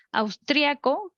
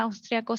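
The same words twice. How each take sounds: First: "austriaco" con hiato, la i tónica: aus-trí-a-co; acento en la í de austriaco. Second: "austriaco" con diptongo, tónica en la a: aus-tria-co; austriaco sin tilde. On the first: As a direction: pronounce "austriaco" in four beats, stressing the i. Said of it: "que lleva tilde". ("austriaco" con tilde, marcando la í) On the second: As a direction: pronounce "austriaco" in three beats, stressing "tria". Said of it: "sin tilde". ("austriaco" sin hiato, acento en tria) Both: Shown as a demonstration.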